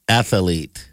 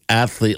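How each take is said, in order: First: The word is said with an extra middle syllable. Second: The word is said with two syllables. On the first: "like athlete" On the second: "He pronounces athlete"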